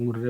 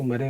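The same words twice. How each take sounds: First: मुर्रे with a u sound and a doubled r, mur-re; Murray pronounced मुर्रे; Murray said Murrey. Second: मरे with a short first syllable, like ma-re; Murray pronounced मरे; Murray said Marey. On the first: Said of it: "कुछ लोग मुर्रे बोलते हैं". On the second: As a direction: say मरे as ma-re, no u sound. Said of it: "कुछ लोग उसको मरे बोलते हैं". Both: Shown as a demonstration.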